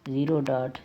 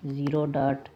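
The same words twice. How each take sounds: The two takes are said the same way.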